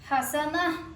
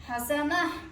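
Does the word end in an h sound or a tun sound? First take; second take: h sound; h sound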